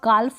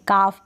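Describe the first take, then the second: First: The L sound is pronounced before the F. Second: The L sound is silent before the F. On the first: The speaker calls it wrong. "अब इसको आप काल्फ नहीं पढ़ दे" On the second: The speaker calls it right. "काफ पढ़े, एल को आप silent कर दे"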